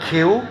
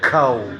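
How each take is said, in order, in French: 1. Les lettres se prononcent à l'anglaise. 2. Les lettres se prononcent à la française. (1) "il le dira K O" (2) "en langage français, on va dire K O"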